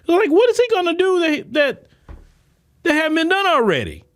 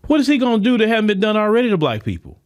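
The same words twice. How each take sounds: First: Near-falsetto outrage; incredulous squeal. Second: Fast and higher, pressing the question; quick rising indignation; indignant question. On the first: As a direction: throw it up high in exasperated disbelief. Same question repeated, escalated. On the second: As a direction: fire it off like a challenge. Rhetorical question, first take. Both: Real, not acted.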